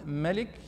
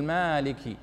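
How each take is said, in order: First: "ملك" with a short a, ma-lik; without alif. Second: "مالك" with a long drawn aa, maa-liki; alif pronounced. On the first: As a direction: say "ملك" keeping the first vowel short. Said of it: "والذي لا يقرأ الألف الصغيرة". («ملك» بميم مفتوحة دون مد) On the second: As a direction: stretch the first vowel of "مالك". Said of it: "ألف الصغيرة ينطقها يقول". («مالك» بمد الألف بعد الميم) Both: Shown as a demonstration.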